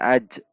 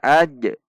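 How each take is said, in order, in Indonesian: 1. Bunyi j akhir berhenti datar tanpa pantulan. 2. Bunyi j akhir berhenti dengan pantulan gema. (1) "Bukan aj" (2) "Huruf jim sukun dibaca qalqalah. Ada pantulan"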